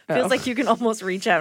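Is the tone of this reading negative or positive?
negative. It is read in a displeased, complaining tone. Being so close is a problem. The speaker calls it right. "It's not"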